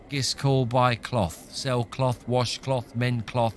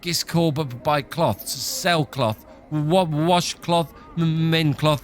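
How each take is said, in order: First: It is said in a flat, steady monotone. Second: It is said shakily, stuttering on each word.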